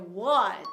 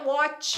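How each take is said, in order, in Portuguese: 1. O T final é pronunciado de forma sutil. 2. O T final é pronunciado com força. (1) "com T no final, né? Então a gente vai falar o T, mas de forma sutil" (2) "Não é what"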